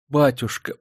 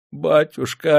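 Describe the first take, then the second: First: Pleading. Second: Higher, louder and drawn out; cling to him with the word Батюшка; feverish plea. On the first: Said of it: "взмолилась она". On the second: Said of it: "горячечно прошептала она". (горячечная мольба) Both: A narrator's reading.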